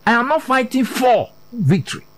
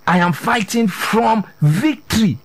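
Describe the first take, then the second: First: "for" stretched out, then a pause; stress on FOR. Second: "from" drawn out and set apart; slow the line and lean on "from"; stress on FROM. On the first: Preacher denying believers must win victory, stress on "for". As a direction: lean hard on "for" and hold before the last word. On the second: Preacher telling believers the position they take, stress on "from". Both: Shown as a demonstration.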